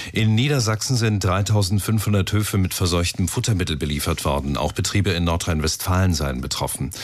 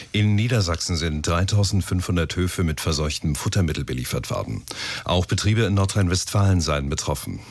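No difference in how they are said.

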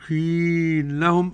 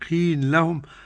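First: The merged vowel is held for four or six counts. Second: The merged vowel is held for two counts. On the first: "أربعة أو ست حركات" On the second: "حركتين"

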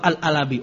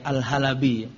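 First: No h sound is heard before 'alabi'. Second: An h sound is heard before 'alabi'. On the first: The speaker calls it wrong. "Coba Al-Alabi" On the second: The speaker calls it right. "Ini saya yang pakai haya"

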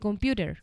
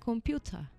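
First: The t is softened and the final r sounds. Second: The final r is dropped, not pronounced. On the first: "un americano... no marcaría la T. Dice computer" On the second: "el británico diría computer. La última R no la pronuncia"

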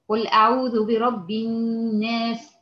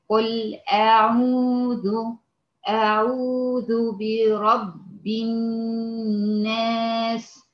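First: It is recited at a medium pace. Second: It is recited slowly and deliberately. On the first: "هقرا بتدوير" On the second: "هقرا بالتحقيق"

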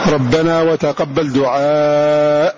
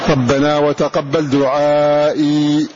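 First: The last word ends without a final 'ee' sound. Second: The last word ends with a final 'ee' sound. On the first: This is the pausal form of most of these readers. "وقفوا عليها هكذا بخلاف البزي" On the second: This is the pausal form of one reader who keeps it. "تبعا لأصله"

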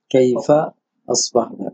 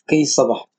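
First: The f sound is fully pronounced. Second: The f sound is dropped and merged.

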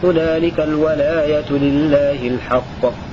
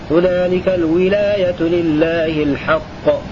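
First: The word walaya starts with the vowel a. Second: The word walaya starts with the vowel i. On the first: "وقرأ الباقون بفتح الواو" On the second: "بكسر الواو"

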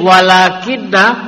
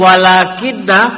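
First: The n is doubled and followed by a vowel. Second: The n is doubled and followed by a vowel.

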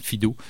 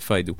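First: The name is pronounced the French way. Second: The name is pronounced the English way. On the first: "il trouvait ça plus intéressant" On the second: "il ne prononçait pas ça comme ça aux États-Unis"

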